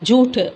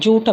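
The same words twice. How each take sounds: First: The vowel is drawn out and lengthened. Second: The vowel is said short, not drawn out. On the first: "கொஞ்சம் இழுத்து சொல்லணும்" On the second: "சில பேர் ஜூட் அப்படிம்பாங்க"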